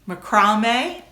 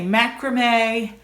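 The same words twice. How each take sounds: First: It is said with a British pronunciation. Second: It is said with an American pronunciation.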